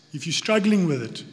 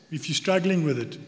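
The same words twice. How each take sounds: The two takes are said the same way.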